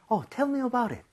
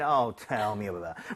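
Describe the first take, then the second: First: It sounds curious, genuinely asking to hear more. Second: It sounds exasperated, like rolling one's eyes.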